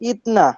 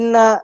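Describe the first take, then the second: First: The t sound is kept before the n. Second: The t sound merges into a double n. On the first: "বুঝে ফেলবেন যে ইতনা" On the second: "listening এ যদি ইন্না বলে"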